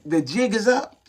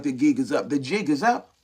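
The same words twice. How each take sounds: First: Said in the usual way. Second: Lower, half-spoken put-on voice, lightly voiced; mock knowing voice. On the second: Preacher teasing the church, lower mock voice. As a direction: tease the congregation, jig is up in a lower put-on voice. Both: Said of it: "I'd be like".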